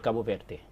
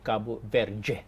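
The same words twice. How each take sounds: First: The d in Verde sounds like plain d. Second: The d in Verde sounds like a j. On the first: "somebody from Portugal would say" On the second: "A Brazilian, just even pronouncing the word Cabo Verde, would pronounce it"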